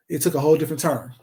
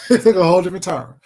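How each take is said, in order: First: Said in the usual way. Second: Repeats it through a real laugh; chuckling as it sinks in. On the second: Real, not acted.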